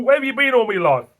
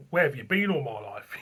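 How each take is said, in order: First: Higher and louder, savouring each word; gushing exclamation. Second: Said in the usual way. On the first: Retold or imitated. To a newly discovered beer, a gushing louder higher cry. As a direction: declare your love to a beer. Repeats the line with gusto.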